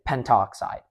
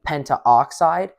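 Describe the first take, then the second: First: The vowel before 'oxide' is dropped. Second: The vowel before 'oxide' is kept. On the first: "you would just condense it and say pentoxide" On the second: "saying like pentaoxide"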